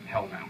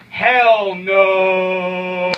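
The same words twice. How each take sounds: First: Low, soft throwaway Hell no; quiet aside. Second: Loud, forceful Hell no; shouted outright denial; emphatic shout. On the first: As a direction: mutter it under the breath. Same answer, thrown away. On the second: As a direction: bellow the refusal. Emphatic refusal to the question. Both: Acted.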